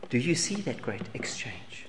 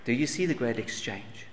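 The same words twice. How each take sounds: First: Soft whisper, almost no voice; whispered question. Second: Said in the usual way. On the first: Real, not acted. Preacher asks the congregation again, now in a whisper. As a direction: hush it like a secret to the congregation.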